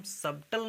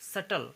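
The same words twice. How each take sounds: First: सबटल with a sounded B; B pronounced. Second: सटल with no B sound; silent B. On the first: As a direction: say सबटल, voicing B before T. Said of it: "सबटल नहीं कहेंगे". (सबटल में ब का उच्चारण करके) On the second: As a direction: say सटल, first vowel straight into T. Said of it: "इसे हम पढ़ेंगे सटल". (सटल, बिना ब की आवाज़ के) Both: Shown as a demonstration.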